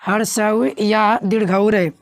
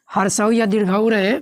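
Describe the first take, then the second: First: Slow emphatic repeat. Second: Said in the usual way. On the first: Shown as a demonstration. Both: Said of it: "क्या रहे?".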